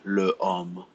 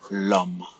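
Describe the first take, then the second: First: The article keeps its vowel before the noun. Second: The article's vowel is dropped before the noun. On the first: The speaker calls it wrong. "You cannot say le homme" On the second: The speaker calls it right. "So you will say l'homme"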